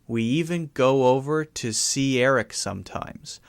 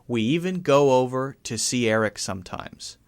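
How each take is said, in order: Both takes have the same delivery.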